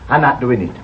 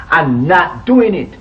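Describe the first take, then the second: First: Said in the usual way. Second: "I'm not doing it" slowed, with weight on "doing"; firm repeat. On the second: Acted. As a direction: dig in on the second refusal, leaning on "doing".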